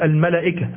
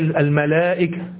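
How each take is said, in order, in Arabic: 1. الصوت بعد اللام قصير. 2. الصوت بعد اللام طويل. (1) "لو نطقناها حسب الكتابة الإملائية فتقول" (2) "لكن هي الملائكة"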